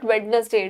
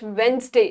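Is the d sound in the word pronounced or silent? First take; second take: pronounced; silent. First: The d in the middle is pronounced. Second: The d in the middle is silent. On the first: The speaker calls it wrong. "It's not Wednesday" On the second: The speaker calls it right. "D is silent"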